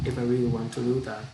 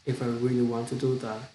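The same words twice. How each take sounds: The two takes are said the same way.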